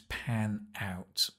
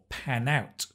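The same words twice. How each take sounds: First: The two words are said separately. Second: The two words are linked together.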